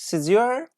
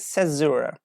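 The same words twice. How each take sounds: First: It is said with a British English pronunciation. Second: It is said with an American English pronunciation. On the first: "British English" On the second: "American English"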